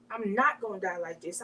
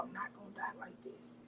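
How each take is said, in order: First: Said in the usual way. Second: Barely-there whisper, fading out. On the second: Retold or imitated. Smothered under a pillow, she whispers her plea. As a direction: breathe it out as if losing air.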